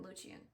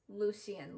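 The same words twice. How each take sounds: First: Lucien tossed off softly as "LOO-shee-un". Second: Lucien said "LOO-see-un". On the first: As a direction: say Lucien with SH in the middle. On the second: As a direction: say Lucien with a clear S in the middle. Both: Real, not acted. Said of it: "that's gonna be really annoying throughout the video".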